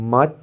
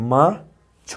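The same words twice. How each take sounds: First: Said in the usual way. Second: মাছ wrongly cut into মা, pause, ছ with an added vowel; মা ... ছ, a clear gap between the halves; split into two beats. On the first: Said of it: "একদমে মানে কথাটা বেরিয়ে আসছে". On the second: Shown as a demonstration. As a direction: say মা and ছ as two separate syllables. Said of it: "তুমি যদি এইভাবে বলার চেষ্টা করো".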